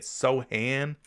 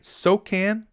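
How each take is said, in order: First: The c is silent in the name. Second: The c is sounded as a k. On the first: "Like the C is silent" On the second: "Am I saying that right?"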